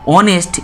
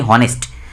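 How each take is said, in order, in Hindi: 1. शब्द की शुरुआत स्वर की आवाज़ से होती है। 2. शब्द की शुरुआत h की आवाज़ से होती है। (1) "एच को हम साइलेंट कर देते हैं" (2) "हम नहीं बोलते हैं कि हॉनेस्ट"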